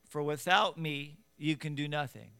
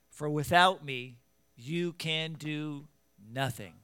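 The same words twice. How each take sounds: First: It is read plainly, without special emphasis. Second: It is read with strong, forceful emphasis.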